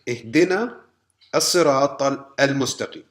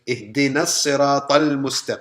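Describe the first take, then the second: First: The alif starting the article is pronounced separately. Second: The words link, with the article's alif silent. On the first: The speaker calls it wrong. "we don't say" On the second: The speaker calls it right. "we say"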